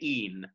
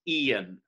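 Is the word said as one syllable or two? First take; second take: one; two. First: The word is said as one short syllable. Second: The word is drawn out into two syllables. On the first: The speaker calls it right. "if you want it to be one syllable, you have to say e'en" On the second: The speaker calls it wrong. "not e'en. If you turn it into e'en, you might as well have kept it even"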